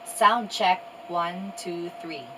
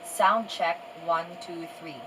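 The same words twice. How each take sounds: First: The voice is recorded about one meter away. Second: The voice is recorded about two meters away. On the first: "one meter away from the camera" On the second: "I am two meters away from the camera"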